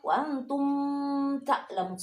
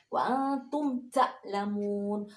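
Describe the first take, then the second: First: The m sound is blurred into the next sound. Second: The m sound is pronounced clearly and distinctly. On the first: The speaker calls it wrong. "salah ya" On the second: The speaker calls it right. "dibaca tegas ya"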